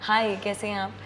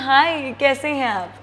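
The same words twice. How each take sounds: First: It is said plainly, with little pitch variation. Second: It is said expressively, with varied pitch.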